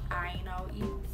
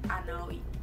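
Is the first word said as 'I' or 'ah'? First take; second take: I; ah. First: The first word is said as a full 'I' sound. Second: The first word is said as a flat 'ah' sound. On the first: "Instead of I now eat" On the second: "So we would use A as a substitute for I"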